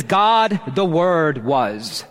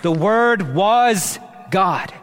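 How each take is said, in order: First: God set first and punched, then the word was slow and falling; stress on God. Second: The word was God, slow, with was leaning and falling; emphatic slow clause. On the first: Pastor showing the Greek word order, God stressed first. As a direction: put God up front and hit it, let the word was trail down slowly. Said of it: "fronted for emphasis". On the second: Pastor highlighting the central clause for the congregation, slow and emphatic. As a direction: land each word of The word was God slowly and firmly. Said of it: "sandwich this central clause to highlight it".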